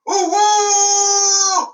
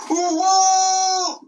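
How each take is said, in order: First: High loud cry of alarm. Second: High shouted alarm; audience-style shout of "A wolf!"; cry out. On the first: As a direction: shout the warning for everyone. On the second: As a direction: shout it back as the crowd would. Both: Shown as a demonstration. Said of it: "Let me hear you do that".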